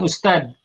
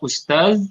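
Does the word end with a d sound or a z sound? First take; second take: d; z. First: The word ends with a bouncing d sound. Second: The word ends with a soft z sound. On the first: This is the Indonesian pronunciation. "Kalau ustad di Indonesia ya pakai dal" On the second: This is the Arabic pronunciation.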